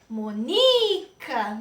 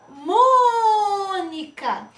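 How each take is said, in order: First: The stress falls off the first syllable. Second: The stress falls on the first syllable. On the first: The speaker calls it wrong. "Se eu disser Monica, não é. Está incorreto" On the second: The speaker calls it right. "Qual é a sílaba mais forte desta palavra"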